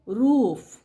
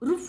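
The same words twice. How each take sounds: First: The vowel is said long. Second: The vowel is said short. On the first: The speaker calls it right. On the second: The speaker calls it wrong.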